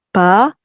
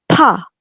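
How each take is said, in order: First: The consonant is released without a puff of air. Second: The consonant is released with a puff of air. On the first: "itu biasa" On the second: "itu ada heh-nya"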